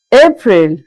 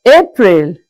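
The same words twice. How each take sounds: The two takes are said the same way.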